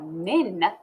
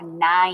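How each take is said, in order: First: The vowel is a short i sound. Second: The vowel is a long i sound. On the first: The speaker calls it wrong. "I would never say that I have nin toys" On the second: The speaker calls it right. "I would say I have nine"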